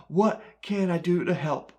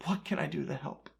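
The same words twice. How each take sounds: First: Said in the usual way. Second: Soft echo. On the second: Acted. Jeremiah asking weeping Jerusalem how to help, soft helpless echo. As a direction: let it fall away like a helpless echo. Repeated lament line, softer echo.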